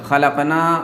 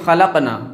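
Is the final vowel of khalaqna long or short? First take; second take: long; short. First: The final vowel is a long aa. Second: The final vowel is a short a. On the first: We created. The speaker calls it right. "खलकना मतलब हमने पैदा किया" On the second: Those women created. The speaker calls it wrong. "ना के बजाय नून पर ज़बर के साथ पढ़ दे"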